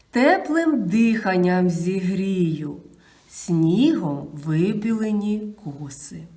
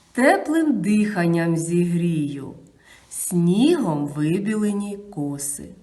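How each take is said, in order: Both takes have the same delivery.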